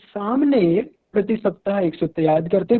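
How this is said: The stress falls on the first word. This person does it and nobody else does. "अगर हम सामने पर ध्यान दे रहे हैं, जोर दे रहे हैं"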